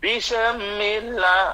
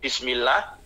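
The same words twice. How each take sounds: First: The word is said with an extra sound added. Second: The word is said with its normal sounds. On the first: The speaker calls it wrong. "ada seme. Bismillah lagi ada sem, berarti menambahi huruf" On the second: The speaker calls it right. "namanya bismillah"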